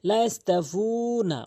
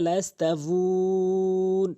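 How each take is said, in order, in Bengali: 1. এটি পুরোটা পড়া হয়, হ্রস্ব স্বরবর্ণ দিয়ে শেষ হয়। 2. শেষের স্বরবর্ণ বাদ পড়ে এবং দীর্ঘ স্বরবর্ণ টানা হয়।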